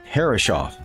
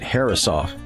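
First: The name is said the common, widely heard way. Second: The name is said the family's less common way. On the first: This is how most people say the name. "like you hear most people pronounce it" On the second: This is how the family itself said the name. "why I pronounce it Herreshoff"

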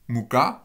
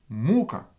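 First: The stress is on the last syllable. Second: The stress is on the first syllable. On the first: It means flour. "vous avez l'accent sur la dernière syllabe" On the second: It means torment. "avec l'accent sur la première syllabe"

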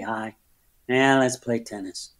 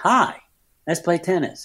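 First: It is said as if hating being there. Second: It is said in a plain, neutral way.

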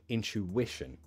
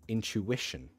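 The two takes are said the same way.

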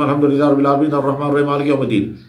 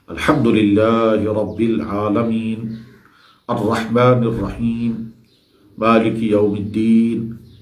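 First: The phrases run together without pauses. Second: There is a pause after each phrase.

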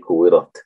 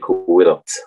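First: The final t releases air without any hiss. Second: The final t is released with an s-like hiss. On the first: The speaker calls it right. "ear comes out, but without the seen sound" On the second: The speaker calls it wrong. "You don't say كورت"

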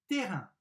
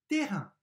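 The two takes are said the same way.

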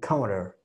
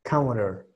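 First: The middle consonant is a soft, R-like tap. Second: The same.

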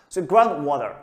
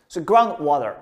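The two takes are said the same way.

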